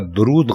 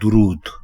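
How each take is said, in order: First: The first syllable has the vowel 'a'. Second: The first syllable has the vowel 'u'. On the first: The speaker calls it wrong. "दरूद गलत है" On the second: The speaker calls it right. "दुरुस्त लफ्ज है"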